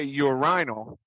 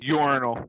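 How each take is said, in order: First: The word is said the British way. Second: The word is said the American way. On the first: "I hear English fellows say" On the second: "in the States we call it"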